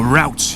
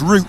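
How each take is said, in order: First: The word is said in an American accent. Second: The word is said in a British accent.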